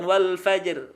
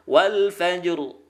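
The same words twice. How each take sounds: First: Slow WAL FAJR ending in light "er"; wrong thin R. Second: WAL FAJR ending in heavy "ur"; thick final R. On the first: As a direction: leave the final R of FAJR thin. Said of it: "Jadi ra-nya tebal". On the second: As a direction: darken the last R of WAL FAJR. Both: Shown as a demonstration.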